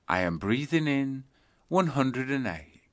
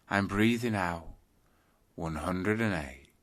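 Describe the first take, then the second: First: Counting on the in-breath. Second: Counting on the out-breath. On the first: Teacher demonstrating the in-breath count, slightly lifted. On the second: Teacher demonstrating the out-breath count, settling lower. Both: Shown as a demonstration. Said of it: "start counting your breaths backwards".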